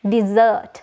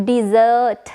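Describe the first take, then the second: First: The z sound is slightly drawn out. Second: The same.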